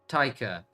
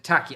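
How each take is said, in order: First: The first vowel sounds like the one in tie. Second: The first vowel sounds like the one in cat. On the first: The speaker calls it right. "That's it" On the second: The speaker calls it wrong. "I think I'm saying it wrong"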